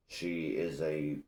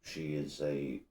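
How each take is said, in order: Both takes have the same delivery.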